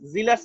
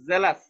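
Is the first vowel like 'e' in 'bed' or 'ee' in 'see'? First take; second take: ee; e. First: The first vowel sounds like 'ee' in 'see'. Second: The first vowel sounds like 'e' in 'bed'. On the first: The speaker calls it wrong. "জিলাস না" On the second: The speaker calls it right. "জে, ... এ, এ, জেলাস"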